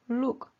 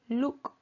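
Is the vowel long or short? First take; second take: short; short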